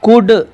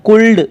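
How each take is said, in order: First: No l sound is pronounced before the d. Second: An l sound is pronounced before the d. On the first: The speaker calls it right. "इनका सही उच्चारण" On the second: The speaker calls it wrong. "ऐसे नहीं पढ़ेंगे"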